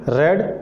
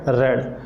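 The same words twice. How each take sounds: First: The vowel is short, like 'red'. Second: The same.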